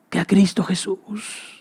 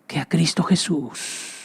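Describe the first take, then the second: No difference in how they are said.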